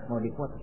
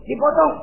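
First: Low, very soft questioning repeat; puzzled echo. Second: High, punched answer; emphatic confirmation. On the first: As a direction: echo it quietly, taken aback. Hajar echoes the news, puzzled. (mengulang lirih, bertanya) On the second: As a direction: confirm it firmly, pitched up high. Devil confirms the news emphatically. (menegaskan dengan nada tinggi) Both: Acted.

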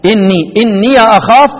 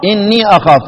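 First: إني with the ya opened before أخاف, "inniya akhaf"; slow "inniya akhaf" for إني أخاف; voweled final ya. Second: إني ending in a long "ee" before أخاف; "innee akhaf" for إني أخاف; long silent-vowel ya. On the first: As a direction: sound the ya in إني as "ya". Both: Shown as a demonstration. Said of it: "هي ياء إضافة واحدة".

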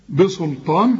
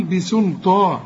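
First: بسلطان with heavy s, like "bosoltan"; wrong thickened seen. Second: بسلطان as thin "bisul" then thick "taa"; light seen, heavy ta. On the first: Teacher shows the faulty reading, seen as sad. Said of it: "خطأ". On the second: Teacher gives the corrected reading, light seen. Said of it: "وبعدين طا". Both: Shown as a demonstration.

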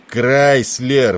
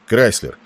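First: Loud, high bellow of the name; angry, raised-voice summons; roar. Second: Said in the usual way. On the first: A narrator's reading. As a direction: roar for his attention. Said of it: "взревел Тернер".

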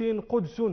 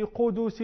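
First: قدس said "QUD-sun", no vowel after the d; lightened with sukun. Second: قدس said slowly "QU-DU-sin", u after the d; full vowel. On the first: Teacher giving an example, قدس lightened to "qudsun". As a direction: close the first syllable of قدس on d. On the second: Teacher giving an example, قدس in full as "qudusin". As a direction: draw out both u vowels in قدس. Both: Shown as a demonstration. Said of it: "تخفف الحركة بالسكون".

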